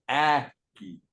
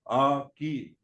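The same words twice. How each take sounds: First: The first vowel sounds like the a in apple. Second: The first vowel sounds like the u in cut. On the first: The speaker calls it wrong. "instead of aki" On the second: The speaker calls it right. "So you would say aki"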